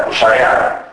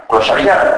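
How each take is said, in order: First: "κλωσαριά" as klusarea, with separate e-a; incomplete synizesis. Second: Said in the usual way. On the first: Shown as a demonstration. Lecturer showing dialect, "κλωσαριά" said klusarea. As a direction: raise o to u in "κλωσαριά" and end in e-a. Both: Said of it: "το φαινόμενο της ατελούς συνείδησης".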